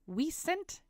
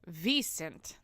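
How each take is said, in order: First: The word begins with a W sound. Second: The word begins with a V sound. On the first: The speaker calls it wrong. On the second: The speaker calls it right.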